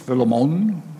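The name is said with a West Indian accent.

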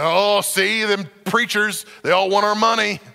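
It is said in a redneck accent.

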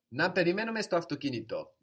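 It is said with a firm statement tune.

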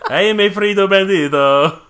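It is said in a put-on Spanish accent.

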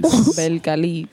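The name is said in a Dominican accent. "Say it with the Dominican accent"

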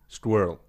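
The word is said in an American accent. The speaker calls it wrong. "I believe they say squirrel"

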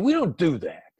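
The voice sounds harsh and insulting. The other side is being attacked. The speaker calls it wrong. "tone of voice is insulting"

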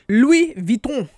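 The name is said with a French accent.

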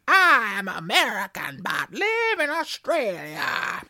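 It is read in a put-on American accent.

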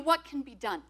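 It sounds earnest and genuinely asking. It is a sincere request for ways to act.

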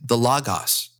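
Logos is pronounced the Greek way.

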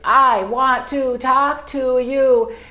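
Every word is stressed about equally. The speaker calls it wrong. "But if you stress every word"

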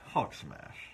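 It sounds mocking and ironic.

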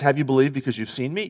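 The voice rises at the end. Jesus is asking Thomas whether he believed because he saw. The speaker calls it wrong. "Instead of reading it as"

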